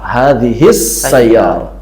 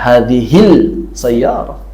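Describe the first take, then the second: First: The article's l merges into a doubled s. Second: The article's l is pronounced before the s. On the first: The speaker calls it right. "Ada idgham" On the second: The speaker calls it wrong. "Enggak dibaca hadhil sayyarah"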